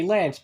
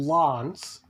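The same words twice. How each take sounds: First: Lance is said with an Australian vowel. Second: Lance is said with a non-Australian vowel. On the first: This is how Australians say it. The speaker calls it right. "And we say Lance" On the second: This is how the character says it. The speaker calls it wrong. "he says Laurel Lance"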